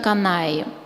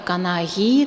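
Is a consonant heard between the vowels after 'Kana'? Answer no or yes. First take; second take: no; yes. First: The vowels run together with no middle consonant. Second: A soft back fricative consonant separates the vowels. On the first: This is how it is said in everyday speech. "в произношении современных норцев звучит как Канаи" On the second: This is how it is said when spoken syllable by syllable. "скандированным образом ... там уже возникает щелевой заднеязычный"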